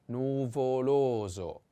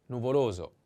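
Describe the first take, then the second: First: Nuvoloso drawn out syllable by syllable; slow model. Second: Said in the usual way. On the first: Shown as a demonstration. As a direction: stretch "nuvoloso" slowly for learners. Teacher models word slowly.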